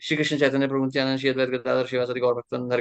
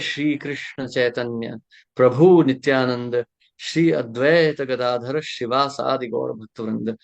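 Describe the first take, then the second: First: It is recited quickly, rushing through the words. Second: It is recited slowly, giving time to each word. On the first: The devotees are remembered without attention. The speaker calls it wrong. "सोलह माला करने की जल्दी में हम बोल जाते हैं" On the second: The devotees are remembered with attention. The speaker calls it right. "थोड़ा समय देते हैं।"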